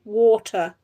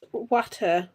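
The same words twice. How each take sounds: First: "water" with a rounded "waw" first vowel; "water" starting on a long "aw" sound; corrected pronunciation. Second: "water" with a short open first vowel, like "watta"; slow "water" with a flat "wat" start; rejected pronunciation. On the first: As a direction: say "water" as "wawter". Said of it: "not water, water". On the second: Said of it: "not water". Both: Shown as a demonstration.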